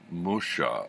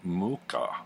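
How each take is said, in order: First: The name is given a French-style pronunciation. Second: The name is given a Czech-style pronunciation. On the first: The speaker calls it wrong. "I always thought he was French. And I thought I'd always been pronouncing it Musha" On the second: The speaker calls it right. "he's actually Czech, and the pronunciation, according to his grandson, ... is Muka"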